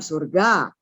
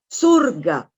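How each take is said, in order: First: The stress is on the second syllable. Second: The stress is on the first syllable. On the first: The speaker calls it wrong. "bukan surga" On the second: The speaker calls it right. "Jadi tekanan katanya di sur"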